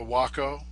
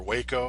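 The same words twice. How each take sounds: First: Waco said with an "ah", WAH-ko; first pronunciation of Waco. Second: Waco said with an "ay", WAY-ko; alternative pronunciation of Waco. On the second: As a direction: say Waco as "WAY-koh". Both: Shown as a demonstration. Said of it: "however you wanna pronounce it".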